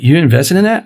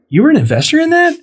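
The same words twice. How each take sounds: First: Understated questioning, rising at the end; mild retold surprise. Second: Quick, high-pitched disbelief; retold incredulous question. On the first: Asking his friend about the investment, mildly surprised. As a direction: ask it with a touch of surprise. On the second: Learning his friend invested, high and incredulous. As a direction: jump up high as if stunned.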